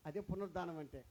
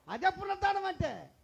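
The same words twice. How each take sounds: First: Quiet. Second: Higher and louder, preached out; proclaiming. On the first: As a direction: drop the voice low and soft. Repeated key line, first quietly. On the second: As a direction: ring it out to the congregation. Repeated key line, now proclaimed. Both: Acted.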